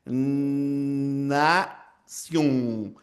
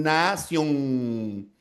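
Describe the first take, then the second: First: "nación" with a long, held alveolar N at the start; drawn-out "nnna-ción", lingering on the opening N; stretched first N. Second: "nación" ending in a held "ng" sound; "na-ciónng", lingering on a velar nasal at the end; velar final N. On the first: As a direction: hold the first N of "nación", tongue tip on the alveolar ridge. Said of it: "la N, con la primera parte". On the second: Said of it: "la segunda N va hacia el final". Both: Shown as a demonstration.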